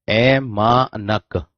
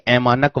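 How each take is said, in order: First: ऐमानक drawn out very slowly, ऐ, मा, नक; syllable by syllable. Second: Said in the usual way. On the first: Shown as a demonstration. Teacher writing out the term for students, ऐमानक slowly syllable by syllable. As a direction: stretch each syllable of ऐमानक apart.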